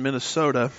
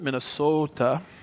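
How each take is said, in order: First: It is said in the speaker's usual accent. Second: It is said in a local Minnesotan accent.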